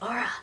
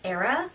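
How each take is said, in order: First: The name starts with an "are" sound. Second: The name starts with an "air" sound. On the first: The speaker calls it right. "oh wait, it's Aura" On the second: The speaker calls it wrong. "I called her like Era for most of the time"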